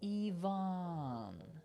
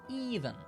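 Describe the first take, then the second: First: The second vowel is an open 'ah' sound. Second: The second vowel is a reduced 'uh' sound. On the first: The speaker calls it right. "it's going to be an" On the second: The speaker calls it wrong. "that A isn't going to be an un sound"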